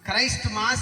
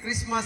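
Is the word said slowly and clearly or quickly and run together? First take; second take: slowly; quickly. First: It is said slowly with both parts clear. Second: It is said quickly with the parts run together. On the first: "స్పష్టంగా పలికితే" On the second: "తొందరగా పలికితే"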